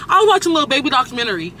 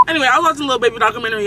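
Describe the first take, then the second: First: Stern, fast, serious announcement. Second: Said in the usual way. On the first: Shown as a demonstration. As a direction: say it like a strict teacher. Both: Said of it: "saying it all stern".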